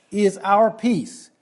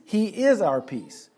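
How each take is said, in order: First: Slow, "our" leaned on hard and falling; preacher drives home that peace is ours: "our" stressed slow. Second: Slow, "is" pressed firmly before "our peace"; preacher contrasts proclaiming peace with being it: "is" stressed. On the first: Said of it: "very emphatic". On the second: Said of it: "Christ is not merely proclaiming peace or providing peace". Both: Real, not acted.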